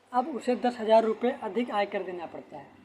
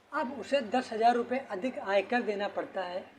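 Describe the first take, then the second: The two takes are said the same way.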